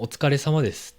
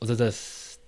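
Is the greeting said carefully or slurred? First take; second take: carefully; slurred. First: Every syllable of the greeting is said clearly. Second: The greeting is said fast, squeezed into a few syllables. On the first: "はっきり言う" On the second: "早くなるし"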